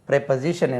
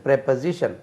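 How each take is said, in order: First: The first syllable has a short 'e' vowel. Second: The first syllable has a short 'e' vowel.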